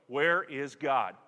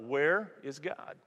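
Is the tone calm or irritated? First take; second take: irritated; calm. First: It is asked in an irritated, impatient tone. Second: It is asked in a calm, patient tone.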